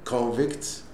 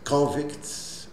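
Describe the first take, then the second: First: The stress is on the second syllable. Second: The stress is on the first syllable. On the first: It is the verb meaning to put someone in prison. "c'est le verbe" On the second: It is the noun meaning a prisoner. "le prisonnier"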